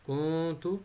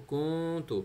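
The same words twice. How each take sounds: The two takes are said the same way.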